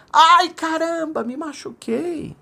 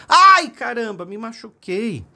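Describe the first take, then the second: First: High, drawn-out call fading away; distant echo. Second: High cry that opens loud and drops off; child's pained shout. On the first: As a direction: echo the boy's cry from far across the mountains. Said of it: "ele escutou lá de fundo assim". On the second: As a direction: yell out like a boy who just fell. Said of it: "o seu filhinho caiu e gritou". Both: A narrator's reading.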